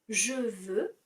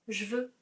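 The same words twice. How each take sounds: First: The vowel of 'je' is pronounced. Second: The vowel of 'je' is dropped.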